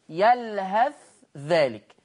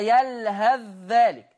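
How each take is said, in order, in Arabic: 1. الثاء مُظهرة بوضوح ومنفصلة. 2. الثاء مُدغمة في الذال التي بعدها. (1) "ورش هيبين الثاء" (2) "حفص يضغم الثاء في الذال"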